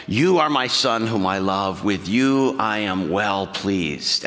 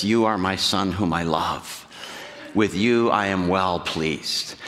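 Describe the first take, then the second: First: Low, slow, tender voice of the Father; beautiful loving voice. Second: Low, slow, loving voice of God the Father. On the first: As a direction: let the words fall slow and loving, like a proud father. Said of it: "this beautiful voice". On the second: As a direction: speak it lowly, slowly, like a father blessing his son. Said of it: "Jesus hears a voice that says". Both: Acted.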